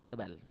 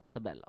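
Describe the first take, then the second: The two takes are said the same way.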